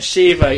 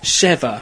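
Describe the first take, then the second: First: The first vowel sounds like 'ee'. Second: The first vowel sounds like 'eh'. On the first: The speaker calls it wrong. "not an I" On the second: The speaker calls it right. "With an E, not an I"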